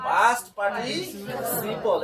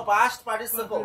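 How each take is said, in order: First: past participle very slow and stretched; slow teaching repeat. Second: Said in the usual way. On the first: Shown as a demonstration. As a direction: draw out past participle for the class. Teacher repeats term slowly for class. (খুব ধীরে টেনে past participle)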